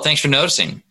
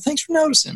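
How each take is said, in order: First: It is said in a mocking, sarcastic tone. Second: It is said in a warm, sincere tone. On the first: The attention comes too late and is scorned. "Kind of a sarcastic, kind of a comeback" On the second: The compliment is genuinely appreciated. "normally you just mean it as like, oh, you got a compliment"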